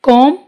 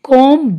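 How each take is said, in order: First: The word ends on the m with no b. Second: A b sound is added after the m. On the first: The speaker calls it right. "बी इसमें silent है" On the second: The speaker calls it wrong. "अब इसको हम कॉम ब नहीं बोलेंगे"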